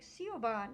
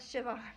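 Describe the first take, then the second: First: The middle of the name lacks a V sound. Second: The middle of the name has a V sound. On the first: The speaker calls it wrong. "somebody I know was pronouncing it like Siobhan" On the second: The speaker calls it right. "no, Siobhan"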